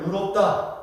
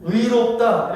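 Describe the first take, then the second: First: "의롭다" said as eu-rop-da, Jeolla style; Jeolla pronunciation. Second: "의롭다" with a full ui glide on 의; full ui diphthong. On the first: Preacher shows Jeolla speakers saying righteous, Jeolla eu for ui. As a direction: Jeolla accent, flattening 의 to eu in "의롭다". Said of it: "의 발음이 잘 안 돼요". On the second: Preacher models righteous said properly, full ui in "의롭다". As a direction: sound both vowels of 의 in "의롭다". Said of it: "의롭다 이러면 되는데". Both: Shown as a demonstration.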